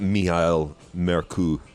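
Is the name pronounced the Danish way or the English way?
Danish. Both names are pronounced in a Danish way.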